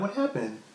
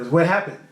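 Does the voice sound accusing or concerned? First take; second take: concerned; accusing. First: It sounds soft and concerned. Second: It sounds blunt and accusing. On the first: The listener's wellbeing is the main worry. "It's not like what happened. Like there's not a general concern type situation" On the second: The listener is suspected of having caused the trouble. "Like you get the, the tone"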